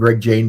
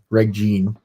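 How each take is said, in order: First: The surname rhymes with 'rain'. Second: The surname rhymes with 'seen'. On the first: The speaker calls it wrong. "I keep wanting to call him Greg Jane" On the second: The speaker calls it right. "It is pronounced Gene"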